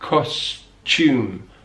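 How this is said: The t and y sound merge into a ch. "we have a kind of ch"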